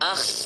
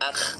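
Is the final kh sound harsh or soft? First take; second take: harsh; soft. First: The final kh sound is very harsh and raspy. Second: The final kh sound is soft and gentle. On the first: The speaker calls it wrong. "একদম এক্সট্রিম লেভেলের যেন বেশি খ্যারখ্যারি না হয়ে যায়, এমন না" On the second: The speaker calls it right. "আওয়াজটি সফটলি আসবে।"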